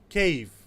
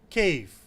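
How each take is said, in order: The two takes are said the same way.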